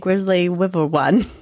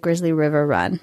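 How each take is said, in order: First: The phrase is said in a garbled, stumbling way. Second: The phrase is said smoothly and clearly. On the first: The speaker calls it wrong. "Usually I can't say it well" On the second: The speaker calls it right. "I said it right"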